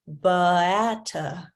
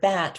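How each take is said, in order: First: Extra vowel sounds follow the consonants. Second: The word is said as one clipped syllable. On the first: "not to produce a schwa after it" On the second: "the word bat"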